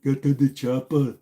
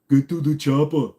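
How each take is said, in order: First: A second, lighter Austrian accent try; Arnold again. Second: Austrian accent, low and louder; Arnold impression. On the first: Retrying the Arnold Austrian accent for chat, lighter. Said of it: "Arnold Schwarzenegger impression". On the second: Asked by chat, tries Arnold's Austrian accent, too deep. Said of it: "See, I always go too deep". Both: Shown as a demonstration.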